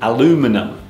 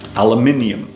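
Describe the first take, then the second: First: It is said with four syllables, American style. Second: It is said with five syllables, British style. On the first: "In American English, they pronounce this word aluminum" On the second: "But in British English, we say aluminium"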